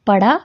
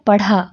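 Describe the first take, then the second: First: Plain flapped ड़ in पड़ा; unaspirated ड़. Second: Aspirated ढ़ in पढ़ा. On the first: Teacher reading out the first word, unaspirated ड़ in पड़ा. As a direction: say पड़ा with no breath on the ड़. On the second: Teacher reading out the second word, aspirated ढ़ in पढ़ा. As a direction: add breath to the ढ़ of पढ़ा. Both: Shown as a demonstration. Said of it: "दोनों की आवाज़ में भी फ़र्क".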